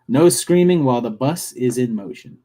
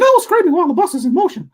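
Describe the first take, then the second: First: It is said in his normal voice. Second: It is said in a Mickey Mouse voice.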